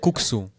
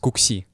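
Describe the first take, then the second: First: The word ends with an 'oo' vowel. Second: The word ends with an 'ee' vowel. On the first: This is the usual name of the dish. "we also have kuksu" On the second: This is how the family's community says it. "pronounced as kuksi"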